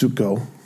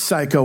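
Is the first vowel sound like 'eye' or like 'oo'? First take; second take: oo; eye. First: The first vowel sounds like 'oo'. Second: The first vowel sounds like 'eye'. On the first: This is the Greek way of saying it. The speaker calls it right. "It's pronounced suko" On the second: This is the English way of saying it. The speaker calls it wrong. "it's not pronounced psycho in the Greek"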